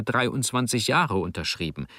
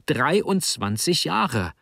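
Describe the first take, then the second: First: Said in the usual way. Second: Slow, higher stress on every part of "Dreiundzwanzig Jahre"; "Dreiundzwanzig Jahre" drawn out angrily, raised pitch; indignant emphasis. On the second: A narrator's reading. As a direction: hammer out "Dreiundzwanzig Jahre" slowly, in disbelief. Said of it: "es kam nur Zorn heraus".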